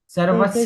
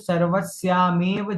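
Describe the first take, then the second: First: The vowel after sarvasy is short. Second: The vowel after sarvasy is long. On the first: The speaker calls it wrong. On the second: The speaker calls it right.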